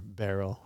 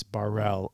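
First: Barrel said as "BAIR-ul"; everyday pronunciation. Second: Barrel said as "bah-RELL"; alternative pronunciation. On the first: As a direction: say Barrel with an "air" first and a weak "ul" ending. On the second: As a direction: say Barrel with an "ah" first and a full "rell" ending. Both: Shown as a demonstration. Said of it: "however you wanna pronounce it".

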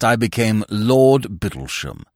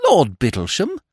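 First: Low and slow, "Lord" weighted with a falling close; pompous lord, proud title. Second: "Lord Bittlesham" asked with a light rising lilt; surprised echo. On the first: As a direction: announce "Lord Bittlesham" gravely, "Lord" leaned on and dropping. Peer announces his title. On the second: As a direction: toss "Lord Bittlesham" back as a question, rising at the end. Young man echoes, astonished. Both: Acted.

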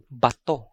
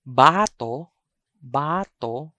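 First: Bato with short BA, stressed TO; stress on second syllable. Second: Bato with long BAA; stress on first syllable. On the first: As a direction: clip bato, weight on the last syllable. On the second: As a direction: stretch the first vowel of bato. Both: Shown as a demonstration. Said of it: "I'm going to read".

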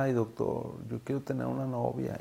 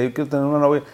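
First: Wistful patient plea. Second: Patient's plea. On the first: Patient shyly tells his doctor he wants a girlfriend, soft plea. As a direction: murmur it like a shy patient asking his doctor. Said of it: "él siempre me decía". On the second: Patient insists to his doctor he wants a girlfriend, raised plea. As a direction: plead it up high like an eager patient. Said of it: "me daba mucha cosa cuando me decía". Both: Retold or imitated.

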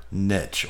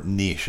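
First: "niche" said as nitch, rhyming with itch; nitch pronunciation. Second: "niche" said as neesh, long ee and soft sh ending; neesh pronunciation. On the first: To viewers, offering both ways to say "niche", first as nitch. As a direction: say "niche" with a short i and a ch ending. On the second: To viewers, offering the alternative pronunciation "niche" as neesh. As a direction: give "niche" the French-style neesh. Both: Shown as a demonstration. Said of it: "or niche, as some of you guys might say".

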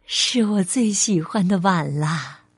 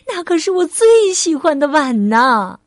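First: Low, tender, contented voice; gentle motherly delight, lower-pitched; smiling mother. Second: Higher, louder lament of a shocked mother; upset, raised-voice protest; dismayed exclamation. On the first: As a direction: treasure a child's gift aloud. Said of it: "笑着说". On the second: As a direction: cry out over a treasured thing. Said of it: "妈妈惊呼起来". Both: Acted.

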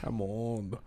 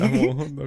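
First: Low, soft, understated delivery; respuesta modesta. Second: Louder, projected repeat; repetición clara. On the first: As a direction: drop it low and quiet, underselling it. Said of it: "pregúntame qué tan bueno soy". (respuesta modesta, grave y bajita) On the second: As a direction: say it up and out for someone who missed it. Repeats after "No entendí. (repetición clara y fuerte) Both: Shown as a demonstration.

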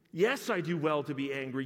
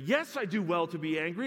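First: Louder, stubborn insistence on Yes; first stubborn take; defiant Jonah. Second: Higher, louder, Yes lifted upward; escalating stubborn repeat; rising defiance. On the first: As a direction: plant your feet on Yes. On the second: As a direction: push harder the second time. Repeat, raised further. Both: Acted.

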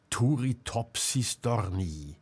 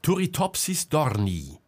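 First: Slow, pensive repeat of the name; slow repetition. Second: Said in the usual way. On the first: A narrator's reading. Selma repeating the jellyfish's name to herself, slowly. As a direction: draw out each syllable, thinking. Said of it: "wiederholte Selma langsam".

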